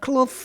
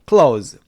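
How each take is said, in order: First: The word is said with a clear th sound. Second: The word is said without any th sound. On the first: "발음이 th지만 cloth 하실 필요도" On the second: "그냥 clothes 그렇게 발음하시면 돼요"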